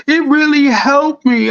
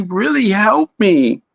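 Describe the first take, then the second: First: High, strained voice near tears; imitating a tearful plea. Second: Said in the usual way. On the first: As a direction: voice the crying girl, pitched up and pleading. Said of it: "it looked like she was crying". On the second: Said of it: "And she said".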